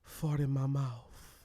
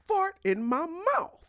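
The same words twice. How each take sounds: First: It is said in a low, seductive voice. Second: It is said forcefully and aggressively.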